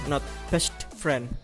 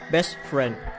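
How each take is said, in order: First: The t at the end of best is pronounced. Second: The t at the end of best is dropped. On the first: The speaker calls it wrong. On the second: The speaker calls it right. "The final t of the first word is often deleted"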